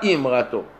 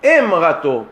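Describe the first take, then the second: First: The first vowel is not an 'e' sound. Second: The first vowel is an 'e' sound. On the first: The speaker calls it wrong. "pas Imrato" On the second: The speaker calls it right. "est ponctué par la voyelle Ségol"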